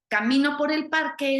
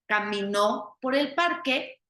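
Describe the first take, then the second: First: The stress is on the second syllable of camino. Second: The stress is on the last syllable of camino. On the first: I am walking through the park now. "es en tiempo presente" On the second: Someone walked through the park in the past. "en tiempo pasado una persona caminó por el parque"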